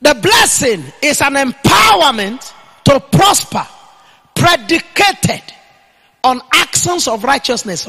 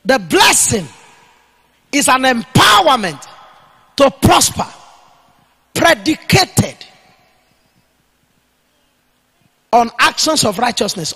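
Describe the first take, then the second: First: Loud, slow preaching proclamation; emphatic declaration. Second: Loud dictation in short phrases with long pauses; dictating for note-takers. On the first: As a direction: punch out EMPOWERMENT, stretched and loud. Preacher declares a definition to write. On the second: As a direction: give it piece by piece so they can write it down. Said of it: "Write it down". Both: Real, not acted.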